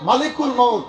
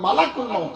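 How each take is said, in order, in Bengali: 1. 'l'-এর পরের স্বরবর্ণটি হলো 'i'। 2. 'l'-এর পরের স্বরবর্ণটি হলো 'a'। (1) "একথা ভুল" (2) "লামে জাবার হবে"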